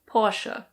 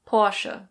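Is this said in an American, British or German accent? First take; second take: German; German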